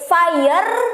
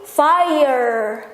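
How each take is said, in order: First: The R is a strong, rolled sound. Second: The R is soft, between R and L. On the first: The speaker calls it wrong. "nggak bisa dibaca sebagai fire" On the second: The speaker calls it right. "tapi fire, gitu ya. Cadel antara R dan L"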